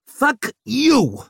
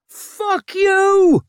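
First: High, loud shout. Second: Very high, loud scream. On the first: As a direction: shout it back. Second cry in the attack. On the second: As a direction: scream it while attacking. Laundress attacks Vic. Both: A narrator's reading.

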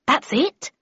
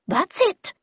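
First: "That's it?" asked with pitch lifting at the end; puzzled narrator's question on "That's it?". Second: Much higher character voice in reply; high-pitched, assured reply; Miss Havisham. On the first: A narrator's reading. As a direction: ask "That's it?" higher, rising in doubt. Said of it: "I asked". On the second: Acted. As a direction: answer in a high, lightly put-on lady's voice. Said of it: "replied Miss Havisham".

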